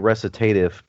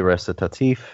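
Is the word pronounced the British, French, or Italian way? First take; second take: British; French. First: The word is pronounced in an English manner. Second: The word is pronounced in a French manner. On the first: "if you're British, you say recitative" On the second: "if you're getting it from French, you say recitatif"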